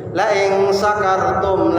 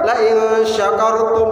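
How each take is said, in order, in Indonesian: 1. Kata kerja itu diawali bunyi s biasa. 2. Kata kerja itu diawali bunyi sh. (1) "la in sakartum sin" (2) "berarti kalau saya bersyukur"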